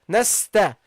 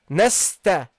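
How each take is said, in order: The two takes are said the same way.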